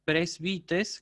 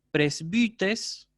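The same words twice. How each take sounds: First: "Presbites" with a plain "ee" in the middle; easier version with I. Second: "presbites" with ü in the middle, presbÜtes; rounded upsilon. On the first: Teacher reviewing vocabulary, "Presbites" with plain I. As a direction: say "Presbites" with an unrounded "i". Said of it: "pueden pronunciarla como una I". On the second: Teacher reviewing vocabulary, "presbites" with rounded ü. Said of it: "se la pronuncia como U". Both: Shown as a demonstration.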